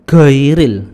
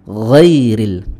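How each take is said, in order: First: It starts with a hard g sound. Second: It starts with a throaty fricative sound. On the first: The speaker calls it wrong. "bukan huruf G dalam bahasa Indonesia" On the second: The speaker calls it right. "ucapkan dengan sempurna"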